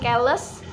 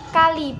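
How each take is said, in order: First: It is said with 'e' vowels, ending in 's'. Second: It is said with 'a' and 'i' vowels. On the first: This is a slangy, dialect-coloured pronunciation. The speaker calls it wrong. "bukan keles" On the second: This is the standard pronunciation. The speaker calls it right. "kali bukan keles"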